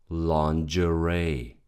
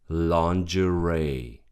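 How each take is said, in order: Both takes have the same delivery.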